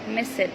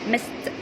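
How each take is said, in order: First: The ending is said as a separate 'id' syllable. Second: The ending is said as a short 't' sound. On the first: The speaker calls it wrong. "some people, for example, say missed call" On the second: The speaker calls it right. "it be pronounced as ta"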